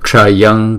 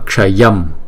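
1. Từ này kết thúc bằng âm ng. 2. Từ này kết thúc bằng âm m. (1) "chúng ta phải chuyển cái anusuara này thành chữ ngờ" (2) "Đứng một mình thì đọc là Ksayam"

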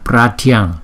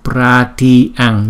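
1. Từ này được đọc nhanh và dính liền nhau. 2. Từ này được đọc chậm và cẩn thận.

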